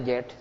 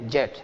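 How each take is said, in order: First: The word begins with a hard G sound. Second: The word begins with a J sound. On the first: The speaker calls it right. "लेकिन आपने पढ़ा गेट, एक अपवाद हमारा" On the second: The speaker calls it wrong. "कायदे से इसको जेट पढ़ना चाहिए था"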